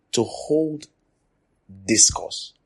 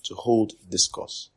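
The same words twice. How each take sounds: First: Teacher's stress on "hold". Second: "To hold discourse" said slowly, even; dictating slowly; slow repetition. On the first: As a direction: lean up on "hold". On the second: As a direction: repeat it slowly for note-taking. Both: Shown as a demonstration.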